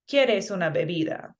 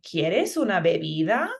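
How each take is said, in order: First: The pitch falls at the end. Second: The pitch rises at the end. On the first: It is a statement. "That's a statement" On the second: It is a question. "go up at the end with our tone. So it'll sound, the question would sound like"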